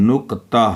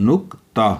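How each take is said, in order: No difference in how they are said.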